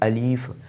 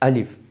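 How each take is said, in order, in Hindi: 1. दूसरा स्वर लंबा खींचा जाता है। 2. दूसरा स्वर छोटा रखा जाता है। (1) "अलीफ़ नहीं है" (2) "इसे लम- लंबा नहीं करना है, छोटा पढ़ना है"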